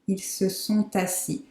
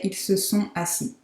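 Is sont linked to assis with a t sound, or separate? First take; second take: linked; separate. First: The t of sont links into assis. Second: Sont and assis are said without linking. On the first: "So I'm making the liaison here" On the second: "It's optional, so you could also say"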